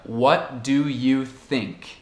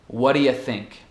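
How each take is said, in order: First: Each word is said slowly and in full. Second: 'Do you' is said fast and reduced to schwas. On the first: "a forma certa seria ... isso é só muito devagar" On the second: "no dia a dia, um bate-papo, eu vou pronunciar"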